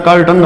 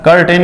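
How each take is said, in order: First: कर्टन ending in a neutral "टन"; correct "tan" ending. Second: कर्टेन ending in a full "टेन"; wrong "ten" ending. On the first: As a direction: say कर्टन with a schwa in the last syllable. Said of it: "कर्टन होता है". (कर्टन के अंत में "टेन" नहीं, "टन" बोलें) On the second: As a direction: say कर्टेन with a clear "e" in the last syllable. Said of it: "कर्टेन नहीं होता". (कर्टेन के अंत में साफ़ "टेन" बोलें) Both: Shown as a demonstration.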